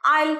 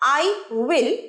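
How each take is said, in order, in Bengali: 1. দুটো শব্দ জুড়ে একটা হয়ে যায়। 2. দুটো শব্দ আলাদাভাবে বলা হয়।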